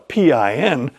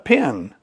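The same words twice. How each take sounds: First: It is spelled out letter by letter. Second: It is said as one word. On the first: The speaker calls it wrong. "nobody calls it a PIN" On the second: The speaker calls it right. "routinely pronounced as if it's a word"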